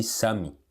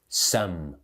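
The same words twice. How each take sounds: First: "some" with an extra "ee", like "sah-mee"; mispronounced some. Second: "some" as "sum", closing on M; correct some. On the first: Teacher showing learners the mistake, "some" as "sami". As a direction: add a Portuguese "i" after the M of "some". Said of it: "Não tem esse some". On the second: Teacher giving the right model, "some" as "sum". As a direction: say "some" in one syllable, lips shut at the end. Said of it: "É some". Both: Shown as a demonstration.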